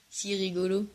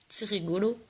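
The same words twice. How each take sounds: First: Said through a soft laugh; laughing repeat. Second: Said in the usual way. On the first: Real, not acted. Teasing her friend back, laughing softly. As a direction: let the laugh carry the words.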